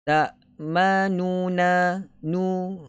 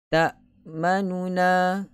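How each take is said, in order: First: The vowel after the first n is full length. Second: The vowel after the first n is very short. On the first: "kalau sempurna harakat kita akan sebut tak manuna nu" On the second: "Tapi kalau satu per tiga harakat"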